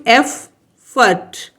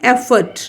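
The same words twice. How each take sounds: First: एफ, फर्ट as two separate beats; split into syllables. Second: Said in the usual way. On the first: Shown as a demonstration. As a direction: pause clearly between एफ and फर्ट. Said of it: "टू syllable word है". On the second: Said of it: "ये भी टू".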